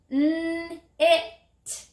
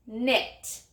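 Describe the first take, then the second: First: 'N-it' drawn out sound by sound on a high note; stretched word. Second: Said in the usual way. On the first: Shown as a demonstration. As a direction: hold the n and i of 'N-it', then release the t. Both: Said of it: "Stretch it".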